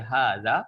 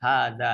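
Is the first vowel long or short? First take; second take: long; long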